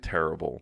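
It is said with an English pronunciation. "like in English, we would say terrible"

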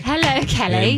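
It is said in a British accent. The speaker calls it right. "oh, gosh, your accent"

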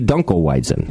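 It is pronounced with an English pronunciation. "in English, it would be"

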